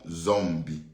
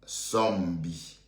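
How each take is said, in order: First: The name begins with a Z sound. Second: The name begins with an S sound. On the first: The speaker calls it wrong. "S et non Z" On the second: The speaker calls it right. "S et non Z"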